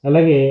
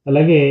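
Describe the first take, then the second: No difference in how they are said.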